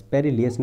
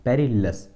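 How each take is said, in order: First: पेरिलियस ending in "-li-yas"; rejected pronunciation. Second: पेरिलस ending in a short "-las"; पेरिलस as three syllables, pe-ri-las; preferred pronunciation. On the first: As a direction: say पेरिलियस with an "i" glide before the final "as". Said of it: "पेरिलियस नहीं". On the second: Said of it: "पेरिलस बोलूँगा". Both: Shown as a demonstration.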